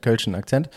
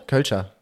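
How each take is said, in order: First: Kölschen with -en ending, settled and lower; corrected form Kölschen. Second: Kölscher with -er ending, falling, trying it out; wrong form Kölscher. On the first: Correcting himself on the Cologne accent's name. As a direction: fix it to Kölschen Akzent, ending on -en. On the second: Friend tries the form Kölscher for the accent's name. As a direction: test the word Kölscher, ending on -er. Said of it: "Haben alle einen Kölscher Akzent?". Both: Shown as a demonstration.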